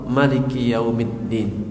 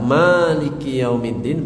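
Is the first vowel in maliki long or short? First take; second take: short; long. First: The first vowel of maliki is short. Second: The first vowel of maliki is long.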